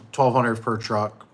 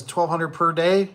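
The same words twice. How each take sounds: First: Slow, heavy "Twelve hundred per truck" with weight on "twelve"; firm slow correction of a misquote; correcting stress. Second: High, slow disbelieving rise on "day"; Jeremy's doubtful question, slow and high; incredulous question. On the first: Shown as a demonstration. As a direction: set the record straight, word by word. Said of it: "That's what I was talking about". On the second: Retold or imitated. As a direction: draw out "Twelve hundred per day?" like you can't believe it. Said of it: "Jeremy says".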